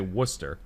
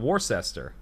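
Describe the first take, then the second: First: It is said the local way, with letters dropped. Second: It is said the Midwestern way, sounding more letters. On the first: "we say Worcester" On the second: "I'll have an uncle come out from the Midwest, and he'll be like"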